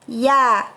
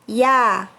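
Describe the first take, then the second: First: The ya sound is thin and light. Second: The same.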